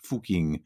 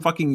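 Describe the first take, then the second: First: The name is said with an Austrian-style pronunciation. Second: The name is said with an English-style pronunciation. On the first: The speaker calls it right. "We have to get the Austrian in there" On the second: The speaker calls it wrong. "I'm also pronouncing it a little bit oddly"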